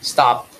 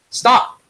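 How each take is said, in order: First: It is said casually, without force. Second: It is said forcefully, like a shout.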